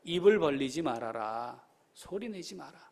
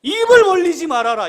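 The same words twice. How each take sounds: First: Subdued, secretive instruction; hushed command. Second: Loud, high, ringing order; forceful preacher's decree; emphatic command. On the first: Same order repeated in hushed voice. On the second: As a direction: proclaim the command at full voice. Preacher quotes God's order emphatically. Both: Acted.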